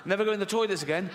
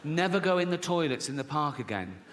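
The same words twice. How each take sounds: First: Quick, higher-pitched retold warning; rattled-off warning. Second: Deliberate warning at an ordinary pitch; measured warning. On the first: Mum in imagined exchange with her son, rattled off. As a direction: rush through the mum's warning. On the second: Retold or imitated. Mum warning her young son off park toilets, measured. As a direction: spell out the warning unhurriedly.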